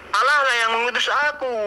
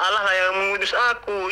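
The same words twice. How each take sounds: First: Allah punched higher and quicker, falling off; stress on Allah. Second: Said in the usual way. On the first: Shown as a demonstration. Preacher stressing to the debater that Allah sent him, Allah punched. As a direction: hit the word Allah hard and fast.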